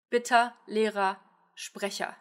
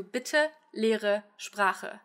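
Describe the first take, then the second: First: 'Bitte, Lehrer, Sprecher' slowly, ending in ah; A schwa endings. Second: 'bitte, Lehre, Sprache' each ending in uh; E schwa endings. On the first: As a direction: turn each final -er of 'Lehrer', 'Sprecher' into a, 'Bitte' as bitt-ah. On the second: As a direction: swallow the final e in 'bitte', 'Lehre', 'Sprache'. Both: Shown as a demonstration. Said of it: "As compared to".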